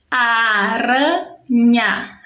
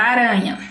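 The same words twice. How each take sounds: First: ARANHA very slow, in three beats a, ra, nha; split into syllables. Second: Said in the usual way. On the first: Shown as a demonstration. Teacher splitting the first word for pupils, syllable by syllable. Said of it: "Três sons, três sílabas". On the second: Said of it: "Primeira palavra".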